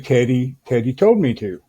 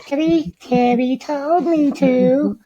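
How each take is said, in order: First: It is said in his normal voice. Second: It is said in a weird high-pitched voice.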